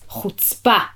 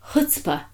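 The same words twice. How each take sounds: First: The word is said plainly and harshly. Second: The word is said with a cute curl.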